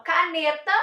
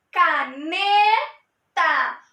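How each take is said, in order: First: Said in the usual way. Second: "caneta" very slowly, syllable by syllable, with a long loud "ne"; slow-motion "caneta", middle syllable held; stressed syllable drawn out. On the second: Shown as a demonstration. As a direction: stretch the "ne" of "caneta" right out. Shows tonic syllable by drawing it out.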